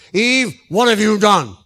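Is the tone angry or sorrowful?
angry. It is said in a harsh, angry tone.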